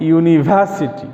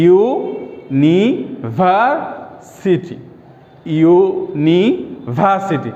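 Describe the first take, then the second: First: Said in the usual way. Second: ইউনিভার্সিটি very slowly as yu, ni, var, siti; split into syllables. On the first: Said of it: "একটু উদাহরণ দিয়ে দেখি". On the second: Shown as a demonstration. Teacher showing a four-syllable example, slow separate syllables. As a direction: draw out each part of ইউনিভার্সিটি with gaps. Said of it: "ইউ একটা syllable".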